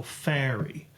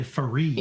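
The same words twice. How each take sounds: First: "fairy" as FAIR-ee; stress on first syllable. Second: "fairy" as fuh-REE; mis-stressed "fairy", weight on the final "ee"; stress on second syllable. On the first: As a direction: slowly lean on the "fair" of "fairy". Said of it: "Well, you stress fair". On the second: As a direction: swallow the first syllable, hit the end of "fairy". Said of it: "You don't say fairy". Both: Shown as a demonstration.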